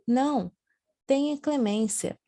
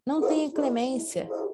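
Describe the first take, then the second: First: There is a pause after the first word. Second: There is no pause after the first word. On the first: Mercy is asked for. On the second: Mercy is refused.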